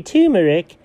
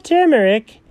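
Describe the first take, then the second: First: "turmeric" said TOO-mer-ic, with no r in the first syllable; lightly mocking "turmeric" with a "too" first syllable; imitating his pronunciation. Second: "turmeric" said as TER-mer-ic, with an r in the first syllable; "turmeric" pronounced normally, TER-mer-ic, as the correct version; own pronunciation. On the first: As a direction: mimic a friend saying "turmeric" as TOO-mer-ic. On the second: Shown as a demonstration. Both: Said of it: "or as you say".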